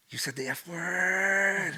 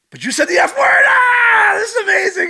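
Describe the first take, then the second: First: Slow, drawn-out scandalised line; acted childlike amazement, dragged out; mock astonishment. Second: Very high, loud, hammed-up squeal; over-the-top screaming astonishment; amazed shriek. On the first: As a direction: stretch the last word in awe. Mock astonishment at mom swearing. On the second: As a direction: shriek it in mock delight. Acting out amazement at mom swearing.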